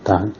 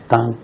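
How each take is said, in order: First: The pitch rises from middle to high. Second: The pitch stays high and level.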